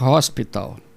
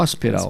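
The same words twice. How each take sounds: First: It is said with a British accent. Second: It is said with an American accent.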